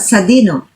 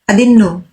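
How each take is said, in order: First: The word is said in full form. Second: The word is said without its first sound. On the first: This is the standard, formal form. "Standard tayo ha" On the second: This is the casual everyday form. "everyday use, bahay use"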